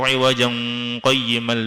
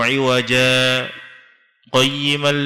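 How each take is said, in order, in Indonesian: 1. Kedua kata itu menyambung tanpa jeda. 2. Ada jeda singkat di antara kedua kata. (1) "Enggak boleh" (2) "Harus berhenti tanpa nafas, pakai sakta"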